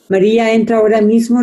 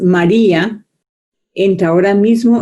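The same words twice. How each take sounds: First: It flows on with no pause after María. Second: There is a pause after María.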